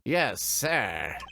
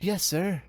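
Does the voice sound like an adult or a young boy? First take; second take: adult; young boy. First: It is said in an adult-sounding voice. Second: It is said in a young boy's voice.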